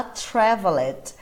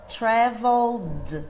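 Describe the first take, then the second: First: Traveled said as three syllables, tra-vel-ed, with the E sounded; wrong pronunciation. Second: Traveled said slowly as two syllables, tra-veld, ending in a D sound; careful right traveled, only the D; correct slow model. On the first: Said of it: "muita gente fala traveled". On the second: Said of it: "é só o som do D". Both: Shown as a demonstration.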